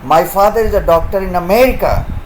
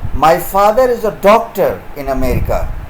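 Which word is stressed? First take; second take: America; doctor. First: The stress is on America. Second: The stress is on doctor.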